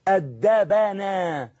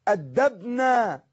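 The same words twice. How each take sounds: First: The 'b' has an 'a' vowel before 'na'. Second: The 'b' has no vowel before 'na'. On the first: The action was done to the speakers. "مبني على الفتح" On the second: The speakers did the action. "الفعل معناه الفاعلين مبني على السكون"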